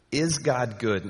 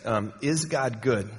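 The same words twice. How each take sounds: First: IS weighted with a falling ending; stress on IS. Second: Is God good slowly, stress on IS; slow down, lean on IS, falling; slow question. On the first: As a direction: lean on IS and let it fall. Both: Shown as a demonstration. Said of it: "let that sink for just a second".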